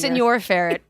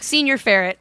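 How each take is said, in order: First: The first word sounds like Spanish 'senor'. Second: The first word sounds like English 'senior'. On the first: The speaker calls it right. "It's supposed to be senor ferret" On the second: The speaker calls it wrong. "but he's like senior ferret"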